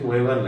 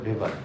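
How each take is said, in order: First: The name begins with a W sound. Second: The name begins with a V sound. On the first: The speaker calls it wrong. "আমরা অনেক সময় দেখি ওয়েবার লেখা" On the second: The speaker calls it right. "সেটা হবে ভেবার"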